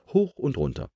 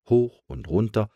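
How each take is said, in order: First: "hoch und runter" with high "hoch", falling to close; rhythmic narration. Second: "hoch und runter" left hanging on a rise; rhythmic narration. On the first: Pumping repeated, closing take. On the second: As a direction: lilt "hoch und runter" with the pumping, unfinished. Pumping repeated in alternating tunes. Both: A narrator's reading.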